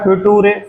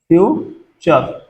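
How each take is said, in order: First: The middle consonant is a plain t sound. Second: The middle consonant is a ch sound. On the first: The speaker calls it wrong. "फ्यूटूरे बोलते हैं आधे लोग" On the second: The speaker calls it right. "फ्यूचर में यहां पे इसको चर बोला जाता है"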